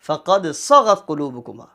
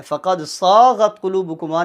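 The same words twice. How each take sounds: First: "صغت" with a short sa; measured recitation, short "صغت"; correct short vowel. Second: "صاغت" with a long dragged saa; wrong long vowel. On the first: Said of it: "اس کو short پڑھتے ہیں". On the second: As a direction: overstretch the first vowel of "صاغت". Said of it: "نہیں پڑھیں گے". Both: Shown as a demonstration.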